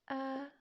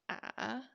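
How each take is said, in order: First: The pitch stays level and straight. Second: The pitch falls and then rises. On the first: "first one" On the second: "falling and rising"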